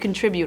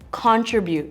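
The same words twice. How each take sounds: First: The word is said with a non-Canadian pronunciation. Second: The word is said with the speaker's Canadian pronunciation. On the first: The speaker calls it right. "It should be contribute" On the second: The speaker calls it wrong. "you're saying contribute"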